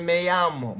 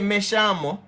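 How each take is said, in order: First: The 'll' sounds like a y sound. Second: The 'll' sounds like an sh sound. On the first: "It can sound like a Y" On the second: "It can sound like sh, like shamo, me shamo"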